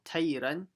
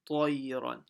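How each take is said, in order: First: The first t is light and thin. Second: The first t is heavy, full-mouthed. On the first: The speaker calls it wrong. "it's not tayran" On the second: The speaker calls it right. "you have to make sure you say that full mouth"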